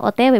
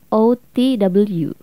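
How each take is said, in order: First: The letters are read with Indonesian letter names. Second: The letters are read with English letter names. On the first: "Kalau dalam bahasa Indonesia kita bacanya singkatannya pun O T W"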